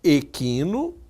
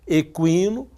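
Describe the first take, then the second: First: The k is said without a following w sound. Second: The k is followed by a w sound. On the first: The word is related to equinox. "substitua-se o Q U por K. E aí você teria equino, ligado a equinócio" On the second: The word means related to horses. "ligado a cavalo"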